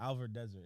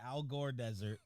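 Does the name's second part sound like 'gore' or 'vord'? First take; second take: vord; gore. First: The name's second part sounds like 'vord'. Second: The name's second part sounds like 'gore'. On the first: The speaker calls it right. "I was in the Alvord Desert" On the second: The speaker calls it wrong. "not the Al Gore desert"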